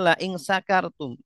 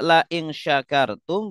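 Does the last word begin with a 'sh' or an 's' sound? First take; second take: s; sh. First: The last word starts with a plain 's' sound. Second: The last word starts with a 'sh' sound. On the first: If you are drunk. The speaker calls it wrong. "bacanya la ing sakartum" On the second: If you are grateful. The speaker calls it right. "Harusnya la ing syakartum"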